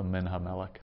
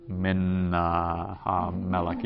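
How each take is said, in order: First: MIN HAMELECH run together as one word; sped-up early syllables. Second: Halting, "Min", a hesitation, then "HaMelech"; a learner piecing the word together; sounding it out. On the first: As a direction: hurry "Min Ha" into the stressed ME of "Melech". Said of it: "speed up early syllables". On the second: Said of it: "you're gonna sound it out". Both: Shown as a demonstration.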